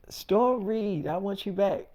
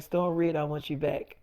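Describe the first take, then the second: First: Not meaning it. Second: Meaning it. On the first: David saying it to Storm without feeling, flat. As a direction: say it like an obligation you don't believe. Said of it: "You're not saying it like you mean it". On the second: David telling Storm sincerely he wants her back, soft. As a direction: lower and softer, sincere. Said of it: "That's a lot better". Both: Retold or imitated.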